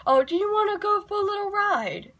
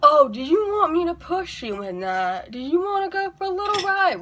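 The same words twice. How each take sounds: First: Much higher, sing-song mock offer; playful high put-on voice. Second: High, playful mock-serious offer. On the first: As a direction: tease like you're offering a kiddie ride. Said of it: "very seriously and go". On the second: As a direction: tease them with a straight face. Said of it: "look at the person ... very seriously and go".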